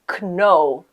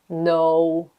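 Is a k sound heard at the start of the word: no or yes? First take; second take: yes; no. First: The word starts with a k sound. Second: The word starts with an n sound. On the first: The speaker calls it wrong. "people pronounce it like kno. Totally wrong" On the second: The speaker calls it right. "We don't pronounce K if it is at the beginning"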